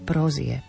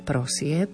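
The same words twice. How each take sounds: First: The middle consonant is a voiced z sound. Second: The middle consonant is a voiceless s sound. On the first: This is how the word is actually pronounced. "ale vyslovujeme prosieb" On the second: This is how the word is written. "Píšeme prosieb"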